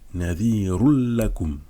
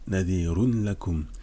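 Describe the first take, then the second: First: The n merges fully into the l, without nasality. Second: The n sound is pronounced before the l.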